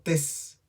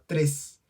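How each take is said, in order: First: The word is said without its R sound. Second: The word is said with its R sound. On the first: "Antes la pronunciaba como tes" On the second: "la palabra tres"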